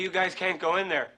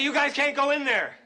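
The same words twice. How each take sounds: First: It is said louder than before. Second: It is said at its loudest.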